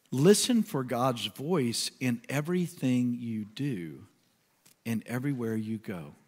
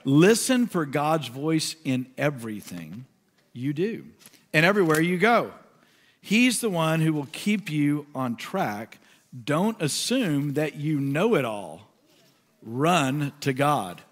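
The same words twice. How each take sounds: First: Slow, softer reading, fading at the end; slow prayerful reading. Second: Slow, building scripture reading. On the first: Pastor rereading the verse in prayer, slow and soft. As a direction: linger over every word. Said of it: "I'm gonna read it slowly". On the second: Pastor finishing the verse for listeners, slow and fervent. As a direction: read it with rising conviction. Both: Acted.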